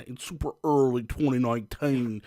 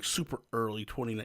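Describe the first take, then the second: First: Put-on British "twenty noineteen"; playful fake British vowels on "nineteen"; mock British accent. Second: Said in the usual way. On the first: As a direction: slip into a hammed-up British accent. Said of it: "I don't know why I'm doing an accent".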